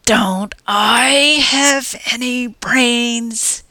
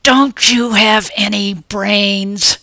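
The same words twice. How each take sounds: First: Slow, higher retort punching the word I; hissed back, stress on I. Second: Slow, louder angry snarl with stress on Don't; furious hiss. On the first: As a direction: throw it back, hitting I hard. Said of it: "he hissed back". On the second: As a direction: snarl the question, punching Don't. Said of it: "I hissed at him furiously". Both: Acted.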